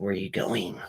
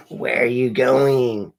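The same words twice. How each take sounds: First: Said in the usual way. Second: Drawn-out, louder repeat of the question; mock-suspicious, drawn out; louder, slower retake. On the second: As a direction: stretch it out and lean on "going". Repeats the quote more forcefully.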